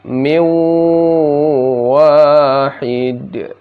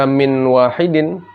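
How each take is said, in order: First: The n merges into a held, nasal w. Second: The n is pronounced clearly before the w. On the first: The speaker calls it right. "dibaca min wahid" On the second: The speaker calls it wrong. "tapi tidak dibaca min wahidin"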